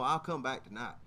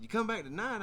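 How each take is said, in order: First: Low, offhand statement; easygoing reassurance, voiced lower; matter-of-fact answer. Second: Higher, questioning repeat; puzzled question, pitched up; surprised echo question. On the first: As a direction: settle it casually, pitch dropping. Mechanic states his return matter-of-factly. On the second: Retold or imitated. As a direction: check it back in disbelief. Teller echoes it back as question.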